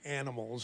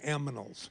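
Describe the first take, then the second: First: The n comes before the m. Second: The m comes before the n. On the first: This is the usual form the speaker avoids. "I never say animals" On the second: This is the speaker's own odd habit. "I always say aminals"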